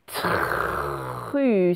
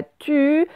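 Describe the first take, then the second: First: Tru said very slowly and soft; slow careful tru. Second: Tu said higher without the r; the mistaken tu, r dropped; wrong tu. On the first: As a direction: stretch tru, t and r both clear. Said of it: "et c'est tru". (tru prononcé très lentement) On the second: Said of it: "c'est pas tu". (tu sans le r) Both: Shown as a demonstration.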